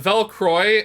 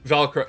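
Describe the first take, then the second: First: The name ends with an 'oy' sound. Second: The name ends with an 'oh' sound. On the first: The speaker calls it right. "like Belfry, if that makes sense" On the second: The speaker calls it wrong. "not Velcro"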